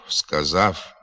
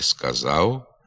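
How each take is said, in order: First: The final sound is a voiceless f. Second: The final sound is a short non-syllabic u. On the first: The speaker calls it wrong. "є ненормативною" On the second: The speaker calls it right. "Треба говорити"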